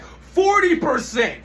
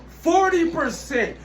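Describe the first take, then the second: First: It is said noticeably louder than before. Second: It is said at a normal, softer volume.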